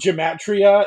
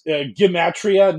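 First: The word begins with a soft G sound. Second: The word begins with a hard G sound. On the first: The speaker calls it wrong. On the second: The speaker calls it right. "It's a hard G"

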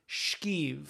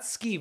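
First: The word begins with an sh sound. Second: The word begins with a plain s sound. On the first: The speaker calls it right. "it's shkeeve" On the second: The speaker calls it wrong. "It's not skeeve"

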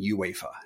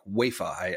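First: The initial U sound is clearly pronounced. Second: The initial U sound is left silent. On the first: The speaker calls it right. "I have now learned, and I am saying UEFA" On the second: The speaker calls it wrong. "I was making the U silent"

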